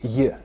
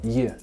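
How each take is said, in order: First: The 'ye' sound is soft and barely pronounced. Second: The same.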